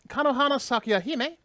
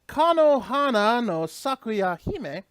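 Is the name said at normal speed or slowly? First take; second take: normal; slowly. First: The name is said at normal speed. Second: The name is said more slowly.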